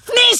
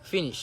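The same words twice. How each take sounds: First: ফিনিশ exploded very high, first vowel squashed; absurdly forceful, high demonstration of ফিনিশ; IELTS-style pronunciation. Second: Said in the usual way. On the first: Shown as a demonstration. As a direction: shriek ফিনিশ as one sudden burst. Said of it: "আর IELTS এর উচ্চারণ হইছে তোর". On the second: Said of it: "এটা হচ্ছে local শব্দ".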